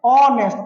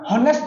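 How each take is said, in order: First: The word begins with a vowel sound. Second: The word begins with an h sound. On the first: The speaker calls it right. "আমাৰ এইচৰ কাম নাই" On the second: The speaker calls it wrong. "হনেষ্ট নপঢ়ো"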